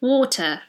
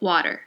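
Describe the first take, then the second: First: It is said in a British accent. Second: It is ordinary American with a softened T.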